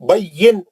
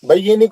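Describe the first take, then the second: First: The word ends on a bare n sound. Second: The word ends with a vowel after n. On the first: The speaker calls it right. "जज़म कर देंगे नून को" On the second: The speaker calls it wrong. "नहीं"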